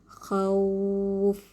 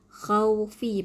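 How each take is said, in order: First: The word stops on the final consonant. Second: The word ends with a short vowel. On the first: The reader stops at this word. "kalau itu cara dibaca secara waqaf" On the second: This is the word's original form. "perkataan asal dia"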